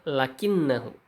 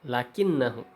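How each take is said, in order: Both takes have the same delivery.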